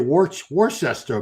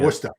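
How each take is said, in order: First: Every written syllable of the name is sounded. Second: The name is shortened to two short syllables. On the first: An outsider reading it would say it this way. The speaker calls it wrong. "somebody would look at that and say" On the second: Locals say it this way. The speaker calls it right. "you gotta be authentic"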